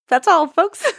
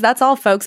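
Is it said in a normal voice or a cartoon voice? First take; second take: cartoon voice; normal voice. First: It is said imitating Porky Pig's cartoon voice. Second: It is said in her normal voice.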